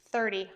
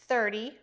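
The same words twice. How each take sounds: No difference in how they are said.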